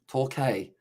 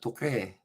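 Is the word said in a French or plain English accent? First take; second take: plain English; French. First: It is said in a plain English accent. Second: It is said in a put-on French accent.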